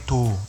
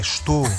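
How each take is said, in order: First: The first syllable is dropped, giving a short form. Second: The first syllable is kept, giving the full form. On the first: The speaker calls it wrong. "Não é tô" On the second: The speaker calls it right. "é estou"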